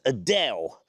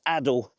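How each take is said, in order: First: The name sounds like the singer's name. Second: The name sounds unlike the singer's name. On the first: The speaker calls it wrong. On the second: The speaker calls it right.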